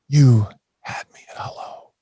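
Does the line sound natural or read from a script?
natural. It sounds natural and felt, with lively expression. The speaker owns and means the words. "It's a completely different script"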